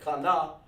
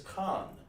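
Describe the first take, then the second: First: The word is said as two syllables. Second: The word is said as one syllable. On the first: The speaker calls it wrong. "You don't say Kana" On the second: The speaker calls it right. "That's just one sound, one band, one sound"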